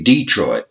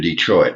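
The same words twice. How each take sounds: First: Detroit said DEE-troit; Southern DEE-troit, weight up front; Southern first-syllable stress. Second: Detroit said de-TROIT; de-TROIT, stressed at the end; standard second-syllable stress. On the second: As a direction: put the weight on the troit of Detroit. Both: Shown as a demonstration. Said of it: "we put the emphasis in a little different place".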